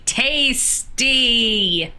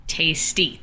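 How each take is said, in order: First: TASTY stretched long on both syllables; drawn-out relish. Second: Said in the usual way. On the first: Acted. Player repeating "tasty" at the game table, drawn-out relish. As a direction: savour TASTY, higher and drawn right out.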